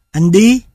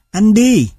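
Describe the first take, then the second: First: "Anh đi" said with raised, questioning intonation; questioning rise. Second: "Anh đi" raised, then dropping sharply as an order; command intonation. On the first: Lecturer demonstrating how raised intonation makes a question, questioning rise. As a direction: lift "Anh đi" upward into a question. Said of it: "Lên giọng, câu hỏi". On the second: Lecturer contrasting a command with a question, commanding fall. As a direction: give "Anh đi" a decisive falling end, as a command. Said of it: "Mệnh lệnh". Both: Shown as a demonstration.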